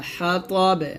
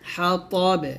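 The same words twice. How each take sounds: No difference in how they are said.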